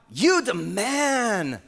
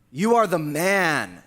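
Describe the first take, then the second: First: "You the man" drawled slow like a cheer; slangy praise. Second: "are" leaned on, slow and firm; stress on are. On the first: Preacher mocking the wrong reading, drawn-out slangy praise. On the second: Preacher to David, slow emphatic accusation. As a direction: land "You are the man" slowly, pressing "are". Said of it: "Not, "You the man". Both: Shown as a demonstration.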